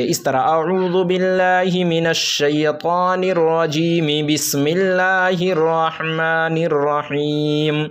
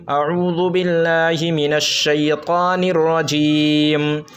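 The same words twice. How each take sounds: First: Slow recitation joining रजीमी into बिस्मिल्लाहिर; joined reading. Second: Slow recitation stopping on रजीम, final मीम silent; stopping at rajeem. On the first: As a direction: link रजीम into the next verse without a break. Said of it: "मिला के पढ़ना है". (मिलाकर पढ़ना, रजीमी बिस्मिल्लाहिर) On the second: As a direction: recite slowly and cut the breath after रजीम. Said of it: "अगर रुकेंगे". (रजीम पर वक़्फ़, धीमी तिलावत) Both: Shown as a demonstration.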